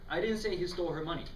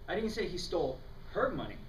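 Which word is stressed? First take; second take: I; her. First: The emphasis falls on the word I. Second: The emphasis falls on the word her.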